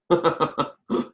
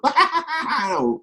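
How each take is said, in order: First: Short, contained chuckle; brief chuckle. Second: Big, high-pitched acted belly laugh; laughing fit. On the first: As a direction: give a small demonstrative chuckle. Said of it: "you know, chuckle or something". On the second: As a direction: burst into an over-the-top fit of laughter. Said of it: "there I go into my fit". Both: Shown as a demonstration.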